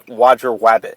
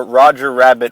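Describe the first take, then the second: First: The r sound is replaced by a w-like sound. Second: The r sounds are said as clear r sounds. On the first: The speaker calls it wrong. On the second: The speaker calls it right.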